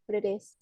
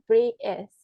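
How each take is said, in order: First: "British" said the American way, with the t softened to a quick tap; American pronunciation. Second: "British" in a British accent, the t left silent. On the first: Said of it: "Kalau versi Amerika kan bacanya". ("British" dengan pelafalan Amerika, t dilafalkan lembut) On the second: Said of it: "pakai aksen ... Britishnya tuh dibacanya". ("British" beraksen Inggris, huruf t tidak dibunyikan) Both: Shown as a demonstration.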